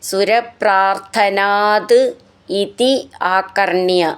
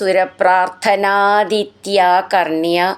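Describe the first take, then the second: First: Each word is said separately, without sound changes. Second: The words run together with the joining sound changes.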